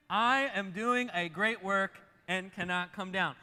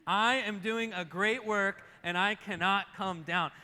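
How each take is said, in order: First: Slow, loud, measured declaration; leading a recitation. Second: Slow, loud, forceful declaration; more oomph. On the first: Preacher inviting congregation to say it along, slow loud declaration. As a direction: lead the room through it word by word. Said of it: "Can you say that with me?". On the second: Preacher rallying congregation for one more time, forceful declaration. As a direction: drive every word home with oomph. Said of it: "with a little more umph in it". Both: Shown as a demonstration.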